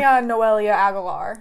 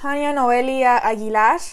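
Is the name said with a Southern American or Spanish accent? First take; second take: Southern American; Spanish. First: The name is said with a Southern American accent. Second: The name is said with a Spanish accent. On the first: "I can do Southern" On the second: "So I have an accent"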